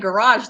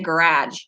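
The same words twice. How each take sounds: First: It is said the speaker's usual local way. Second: It is said her parents' northern regional way. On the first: This is how the speaker says it now. "my parents don't say garage" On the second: This is how the speaker's family says it. "they say garage"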